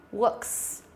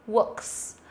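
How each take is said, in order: Both takes have the same delivery.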